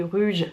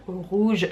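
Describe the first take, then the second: First: "rouge" said as "ruge", with a French "u"; old mispronunciation. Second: "rouge" with a rounded back "ou" vowel; target "ou" sound. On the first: Retold or imitated. Imitating her old learner mistake, "rouge" said as "ruge". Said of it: "je disais rouge". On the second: Shown as a demonstration. Showing the word she could not say, clear "ou" in "rouge". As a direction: say "rouge" with the "ou" as in "fou". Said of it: "Je pouvais pas dire rougir".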